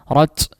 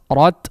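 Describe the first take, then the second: First: The final t ends with a long, heavy hiss. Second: The final t ends with a light puff of air. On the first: The speaker calls it wrong. "tidak boleh terlalu berlebihan ya" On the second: The speaker calls it right. "perlu ada dikeluarkan uh, semacam udara"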